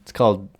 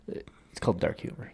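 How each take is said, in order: First: Said in the usual way. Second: Whispered, breathy deadpan; hushed aside. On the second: Real, not acted. Whispering to his friend to land the joke. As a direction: drop to a whisper for the punchline. Repeating the punchline, second take hushed.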